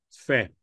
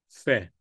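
First: The vowel is soft, between a and e. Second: The same.

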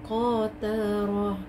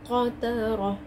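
First: The vowel is dragged out too long. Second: The vowel is kept short without dragging. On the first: The speaker calls it wrong. "not قترة, you're dragging" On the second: The speaker calls it right. "so قترة"

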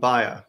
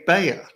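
First: The name is said the European way. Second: The name is said the American way. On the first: "but in Europe, people call the firm Bayer" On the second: "I say Bayer now that I've been in America for a few years"

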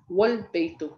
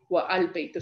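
First: The words are merged without the separate 'a' sound. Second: The words are separate with the 'a' sound pronounced. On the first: The speaker calls it right. "So you'd say wal baytu" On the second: The speaker calls it wrong. "instead of say wa al baytu"

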